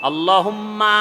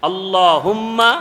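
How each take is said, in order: Both takes have the same delivery.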